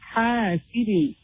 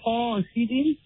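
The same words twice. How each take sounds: First: The first letter is pronounced light and empty. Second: The first letter is pronounced heavy and full. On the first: The speaker calls it right. "the ha is an empty letter. ... we read" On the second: The speaker calls it wrong. "So we don't say"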